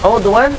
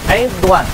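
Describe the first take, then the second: First: The first vowel is a rounded 'u' sound. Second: The first vowel is a front 'i' sound. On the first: "Baca dengan dhammah ain" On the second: "ataupun dengan kasrah ain"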